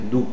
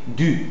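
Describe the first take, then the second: First: The vowel is a back rounded 'ou' sound. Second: The vowel is a front rounded 'u' sound. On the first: The speaker calls it wrong. "tu as tendance à dire d'où, ... mais c'est pas où, c'est U" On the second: The speaker calls it right. "On dit du"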